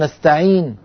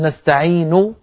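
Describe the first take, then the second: First: The final vowel is silent, with no sound. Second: The final vowel is said fully and clearly. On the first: "يسكن النون ثم يبقى من الضمة فقط منظرها" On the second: "هكذا بضمة كاملة"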